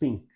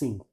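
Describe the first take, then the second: First: The first sound is said as an F. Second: The first sound is said as an S. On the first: "substituir pelo F" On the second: "pelo S"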